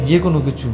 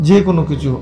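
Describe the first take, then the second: The two takes are said the same way.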